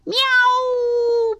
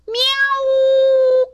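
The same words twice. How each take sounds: First: High, drawn-out happy meow; sing-out kitten mew. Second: Very high, loud yowl; long pained cat screech; kitten's cry. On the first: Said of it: "purred Snowball". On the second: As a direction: yowl like a cat whose tail is stepped on. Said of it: "cried Snowball". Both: A narrator's reading.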